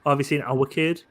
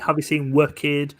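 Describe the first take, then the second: First: Our is said as our, Mackem style. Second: Our is said like were, South Shields style.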